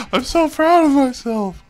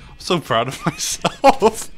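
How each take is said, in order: First: Very high, loud, gushing pride; overjoyed squeal. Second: Loud, high, breaking into a laugh; laughing pride. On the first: Gamer proud he did it, high overjoyed squeal. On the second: Gamer proud he did it, laughing excitedly. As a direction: gush proudly through laughter. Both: Real, not acted.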